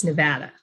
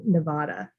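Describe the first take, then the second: First: "Nevada" with a short A as in cat, ne-VAD-a; local pronunciation. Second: "Nevada" with AH in the middle, ne-VAH-da; mispronounced Nevada. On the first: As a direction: say "Nevada" the local way, middle vowel as in apple. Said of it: "with the correct pronunciation". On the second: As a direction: say "Nevada" the outsiders' way, middle vowel as in father. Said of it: "a lot of people say". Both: Shown as a demonstration.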